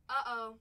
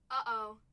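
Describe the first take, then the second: No difference in how they are said.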